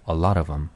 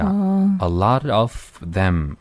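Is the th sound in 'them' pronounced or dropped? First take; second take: dropped; pronounced. First: The th in 'them' is dropped and linked. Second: The th in 'them' is fully pronounced. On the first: The speaker calls it right. "th를 날려버리면 돼요. 이렇게 한 번에 날아가는 거예요" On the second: The speaker calls it wrong. "a lot of them 하지 말고요"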